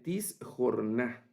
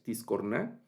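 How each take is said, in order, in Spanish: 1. La consonante del medio es un sonido kh áspero. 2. La consonante del medio es un sonido k fuerte.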